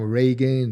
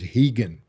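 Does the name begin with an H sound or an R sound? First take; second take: R sound; H sound. First: The name begins with an English R sound. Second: The name begins with an H sound. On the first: The speaker calls it wrong. "they come with different accent, different pronunciation" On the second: The speaker calls it right. "the right pronunciation is Higan"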